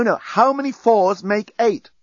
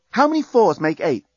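First: Slow, high, patient correction; slowed, emphatic quiz question; insistent repeat. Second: High-pitched brisk quiz question; raised, simple questioning tone; quizzing. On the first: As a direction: spell the question out slowly for a muddled pupil. Repeats the question to confused bomb. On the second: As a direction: put it like a teacher testing a pupil. Quizzing the bomb to reverse countdown. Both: A narrator's reading.

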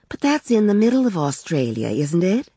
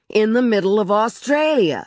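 First: Higher-pitched, mildly questioning wife; a touch of puzzled doubt; tentative query. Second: Sarcastic shout, pitched high; raised, irate husband's voice; angry shouting. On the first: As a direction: query it hesitantly, pitch lifted. Wife timidly questions her irritable husband. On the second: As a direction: throw it back in exasperation. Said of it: "He was shouting". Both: A narrator's reading.

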